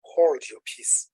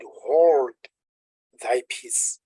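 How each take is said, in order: First: Slow, deliberate hold your peace; slow modern wording. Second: King James wording. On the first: Preacher explaining the modern meaning, slow and deliberate. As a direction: spell it out slowly for the congregation. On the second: Preacher quoting the King James Bible, firm then hushed. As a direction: read it like the old Bible. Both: Shown as a demonstration. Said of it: "That's the King James way of saying".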